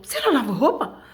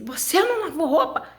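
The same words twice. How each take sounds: First: Pergunta acusadora, mais aguda e mais alta; mãe brava imitada. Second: Pergunta acusadora bem aguda, com riso; mãe brava imitada, rindo. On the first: A mãe cobrando a roupa suja. (voz da mãe brava, acusando) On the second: A mãe cobrando, reencenado rindo. (voz da mãe brava, com um riso) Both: Retold or imitated.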